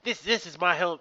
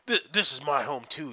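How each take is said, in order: First: It is said in a childlike voice. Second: It is said in a normal adult voice.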